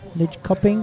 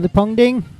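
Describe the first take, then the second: First: The name is said with a 'köping' ending. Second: The name is said with a 'pong-ding' ending. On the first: The speaker calls it right. "is how you pronounce it" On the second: The speaker calls it wrong. "I always say it wrong"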